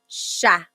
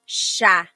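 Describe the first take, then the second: The two takes are said the same way.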